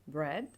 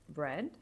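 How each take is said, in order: No difference in how they are said.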